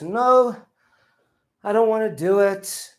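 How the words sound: A low, tired voice that sounds annoyed. The speaker is tired and unwilling. "He groaned. ... My voice is low, but you can tell I'm not happy about this"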